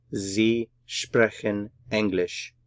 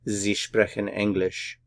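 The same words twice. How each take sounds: First: "Sie sprechen English" slowly, a gap after each word; word-by-word German "Sie sprechen English", falling at the end; slow model sentence. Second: Said in the usual way. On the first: Shown as a demonstration. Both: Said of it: "Just put it all together".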